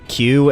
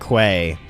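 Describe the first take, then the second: First: The word sounds like 'kyoo'. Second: The word sounds like 'kway'. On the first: "Q and Quay are both okay" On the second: "the handful of individuals that pronounce it Quay"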